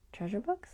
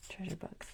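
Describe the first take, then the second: First: Rising, questioning "Treasure Books?"; unsure question. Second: "Treasure Books." falling and much softer, confirmed; settled answer. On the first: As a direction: ask "Treasure Books?" unsure, lifting the end. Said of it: "What's Natasha?". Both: Real, not acted.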